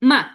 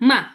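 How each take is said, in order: The two takes are said the same way.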